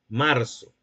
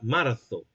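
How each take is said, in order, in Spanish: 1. La consonante del medio es una s silbante. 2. La consonante del medio es un sonido de ceceo, como una z. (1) "empleando el segmento fricativo alveolar sordo"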